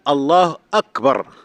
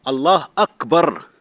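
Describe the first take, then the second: Both takes have the same delivery.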